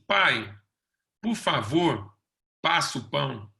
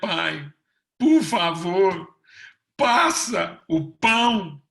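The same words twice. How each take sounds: First: The request sounds calm and sure of itself. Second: The request sounds begging and unsure of itself. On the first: The asker knows the bread already belongs to them. The speaker calls it right. "É o pedido assim" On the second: The asker is begging for something not yet theirs. The speaker calls it wrong. "Não é"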